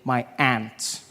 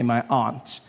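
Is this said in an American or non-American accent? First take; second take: American; non-American. First: It is said in an American accent. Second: It is said in the speaker's own non-American accent.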